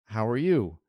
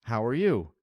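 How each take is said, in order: The two takes are said the same way.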